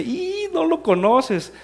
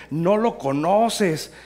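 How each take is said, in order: First: Very high, loud, long squeal into the words; imitated mocking laughter. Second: Slow, stretched-out taunt, louder and raised; teasing disbelief. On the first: Pastor starts laughing at Antonio, imitated mocking laughter. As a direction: mimic someone cracking up, slow and high-pitched. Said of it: "Y se empieza a reír". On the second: Retold or imitated. Pastor teasing Antonio about his companion, teasing disbelief. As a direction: drag it out in mock disbelief. First take, teasing before laughing.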